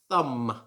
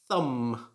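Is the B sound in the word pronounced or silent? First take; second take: silent; silent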